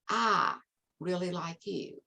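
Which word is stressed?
I. The emphasis falls on the word I. It questions who the one liking is. "I, and who is I?"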